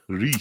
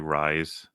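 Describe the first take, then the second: First: The vowel sounds like the one in 'piece'. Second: The vowel sounds like the one in 'nice'. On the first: The speaker calls it right. "you saying Reese" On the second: The speaker calls it wrong. "Do you know any Americans say rise"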